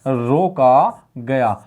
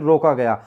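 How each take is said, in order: First: Very slow, stretched syllables; slow dictation. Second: Said in the usual way. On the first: Shown as a demonstration. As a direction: draw out रोका, pause, then गया. Teacher repeats answer for dictation.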